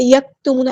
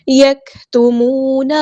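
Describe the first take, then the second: First: یکتمون with the kaf fully voiced, no breath; wrong reading. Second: یکتمون slow, breath flowing on the kaf; correct tajweed. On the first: Teacher showing students how not to read یکتمون. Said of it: "ایسے نہیں پڑھنا". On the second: Teacher showing students the right way to read یکتمون. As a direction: let the kaf of یکتمون soften with breath running on. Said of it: "کاف میں آپ کی جو ہے وہ آواز دھیمی ہو جائے اور سانس جاری رہے". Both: Shown as a demonstration.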